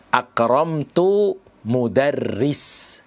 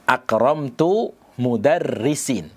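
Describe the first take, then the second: First: The last word ends with no final vowel. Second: The last word ends with a final i-sound. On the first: "dengan mensukun huruf mensukun kata mudarris" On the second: "Dengan mengkasrah mudarrisin"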